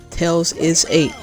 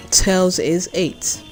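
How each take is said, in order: Both takes have the same delivery.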